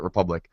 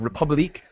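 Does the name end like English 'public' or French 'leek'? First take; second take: English; French. First: The name ends with an English-style 'lick' sound. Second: The name ends with a French-style 'leek' sound. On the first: "everyone in the game calls it Republic" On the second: "if you want to pronounce it with the way it has an accent"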